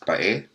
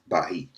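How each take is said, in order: First: It is said as two vowels, ba-e. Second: It is said with an h sound, ba-hi. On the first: This is how the local people say it. "which the natives pronounce as Bae" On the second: This is how foreign settlers said it. "the Spaniards mispronounce as Bahi"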